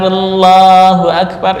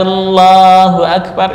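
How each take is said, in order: First: The L in Allahu is light and thin. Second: The same.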